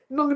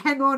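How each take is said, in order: First: It is said fast, squeezed into one syllable. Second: Both words are said fully and clearly. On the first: "Said really fast" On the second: "It's just hang on"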